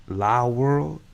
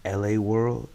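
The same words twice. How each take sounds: First: "La World" with La as one syllable, "lah"; one-word La. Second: "L A World" with L and A as separate letters; spelled-out L A. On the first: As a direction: say "La World" as a word, not as initials. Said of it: "Is it La World or L A World". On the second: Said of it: "am I saying that right". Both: Shown as a demonstration.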